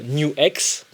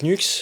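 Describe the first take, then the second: First: The name is said as two syllables. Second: The name is said as one syllable. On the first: The speaker calls it right. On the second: The speaker calls it wrong.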